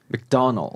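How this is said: It is said with an American accent. "미국에서는 맥도날드 이렇게 발음을 하고요"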